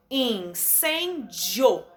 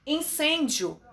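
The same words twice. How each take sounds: First: Incêndio drawn out slowly as in-cên-dio; slow syllable by syllable. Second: Said in the usual way. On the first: Shown as a demonstration. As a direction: beat out incêndio in three slow pieces. (incêndio bem devagar, sílaba por sílaba) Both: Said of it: "Três".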